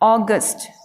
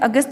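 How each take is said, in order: First: It starts with an 'aw' vowel. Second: It starts with a short 'a' vowel. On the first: "English में बोलना पड़े" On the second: "अपन इसे अगस्त बोलते हैं"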